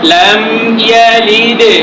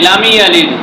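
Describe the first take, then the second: First: The m is held softly with no vowel. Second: An extra i vowel follows the m. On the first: The speaker calls it right. "সাকিন করে সুন্দরভাবে নরম করে ধরতে হবে" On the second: The speaker calls it wrong. "মিমের নিচে জের লাগাইয়া দিই"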